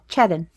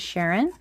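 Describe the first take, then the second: First: The name is said in a Scottish accent. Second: The name is said in a plain accent. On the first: "his Scottish accent" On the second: "well, he doesn't say it like that"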